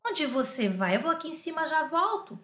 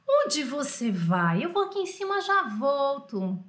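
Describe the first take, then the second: First: Said in the usual way. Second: Very drawn-out question and answer; slow dictation. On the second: Shown as a demonstration. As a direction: read it out slowly for translating. Teacher repeats exercise sentence slowly.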